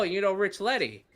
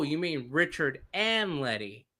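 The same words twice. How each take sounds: First: "Rich Letty" run together quickly; name said fast. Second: "Richard and Letty" slow, each name separate; names spelled out slowly. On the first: Interpreter asking if he knows someone, "Rich Letty" said fast. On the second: Storyteller checking with his interpreter, "Richard and Letty" said slowly. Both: Retold or imitated. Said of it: "he said it so fast".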